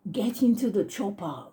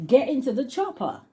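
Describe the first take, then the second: First: Lightly imitated Austrian action-hero accent; mild mock Austrian accent; Arnold Schwarzenegger. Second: Higher, hammed-up Austrian action-hero accent; silly Austrian accent, high and playful; Arnold Schwarzenegger. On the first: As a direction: try out a silly Austrian accent, half-committed. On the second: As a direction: belt out a mock Austrian catchphrase, pitched up. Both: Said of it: "do that silly accent".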